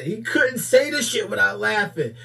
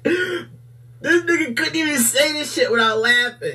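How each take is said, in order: First: Said in the usual way. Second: High, slow, laughing as he speaks; can barely get the words out for laughing. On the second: Real, not acted. Laughing at the clip.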